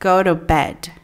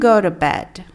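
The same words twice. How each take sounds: First: The words run together in a relaxed way. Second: The same.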